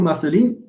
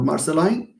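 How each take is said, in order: First: Marceline ending in "leen"; Marceline said as "mar-suh-LEEN". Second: Marceline ending in "line"; Marceline said as "mar-suh-LINE". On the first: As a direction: say Marceline with a long ee at the end. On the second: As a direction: say Marceline with an "eye" vowel at the end. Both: Shown as a demonstration. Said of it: "Correct me if I mispronounce this".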